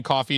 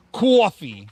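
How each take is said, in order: First: Said in the usual way. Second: "Coffee" in a put-on New York accent, loud on the first vowel. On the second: Shown as a demonstration. Streamer shows chat how New Yorkers say coffee, New York accent. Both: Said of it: "Saying coffee in New York accent".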